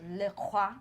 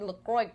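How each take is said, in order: First: Le Croix said "luh kwah", final x silent; French-style pronunciation. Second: LaCroix said "luh-kroyks", with a sounded x; X pronounced. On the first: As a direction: say Le Croix the French way, ending in "wah". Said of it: "I'm pretty sure it's". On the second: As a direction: end LaCroix on a hard "ks". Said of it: "didn't even pronounce the X". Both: Shown as a demonstration.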